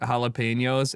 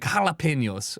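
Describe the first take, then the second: First: It is said with a plain English pronunciation. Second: It is said with a careful Spanish pronunciation.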